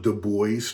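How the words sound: The name is said the American way.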